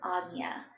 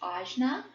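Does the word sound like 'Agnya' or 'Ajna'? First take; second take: Agnya; Ajna. First: It is said with a 'nya' sound, as 'Agnya'. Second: It is said the English way, as 'Ajna'. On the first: "the correct pronunciation" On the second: "phonetically how we would say in English"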